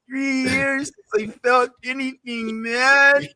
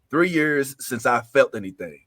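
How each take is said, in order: First: It is read in Michelangelo's angry put-on voice. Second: It is read in a plain reading voice.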